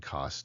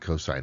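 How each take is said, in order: First: A short one-syllable abbreviation is said. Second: The full word is said, with two syllables. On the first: The speaker calls it wrong. "people say sin, cos, tan, but what they're actually doing there is reading the abbreviation" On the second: The speaker calls it right. "That's how you pronounce them"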